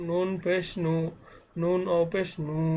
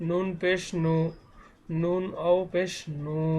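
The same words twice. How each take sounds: The two takes are said the same way.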